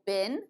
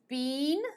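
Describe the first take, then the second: First: The word is said in an American way. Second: The word is said in a non-American way.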